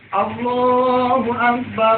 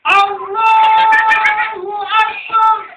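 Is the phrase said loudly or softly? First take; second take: softly; loudly. First: It is said quietly and gently. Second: It is said loudly and with force. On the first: The speaker calls it right. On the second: The speaker calls it wrong. "Jangan sampai cuma saking semangatnya"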